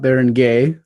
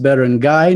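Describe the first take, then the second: First: The last syllable sounds like 'gay'. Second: The last syllable sounds like 'guy'. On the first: The speaker calls it wrong. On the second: The speaker calls it right. "it's pronounced Baron Guy"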